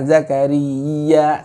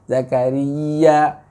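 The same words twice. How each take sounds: First: The sound before the final ya is held long. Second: It moves straight to a pushed final ya. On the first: The speaker calls it wrong. "jangan Zakaria seperti itu tadi" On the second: The speaker calls it right. "bacanya Zakaria ya"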